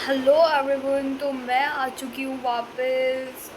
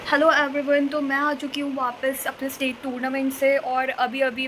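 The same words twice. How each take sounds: First: Greeting dragged out slowly; drawn-out vlog intro, stretched words; slow sleepy hello to camera; slow intro take. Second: Said in the usual way. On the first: Shown as a demonstration. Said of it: "Oh my God, ये कौन सा filter है भाई". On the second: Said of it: "हटाओ इसे".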